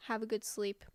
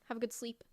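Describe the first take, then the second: First: Soft unvoiced whisper of have a good sleep; hushed goodnight whisper. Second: Said in the usual way. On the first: Real, not acted. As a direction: whisper it like tucking someone in. Saying goodnight to chat.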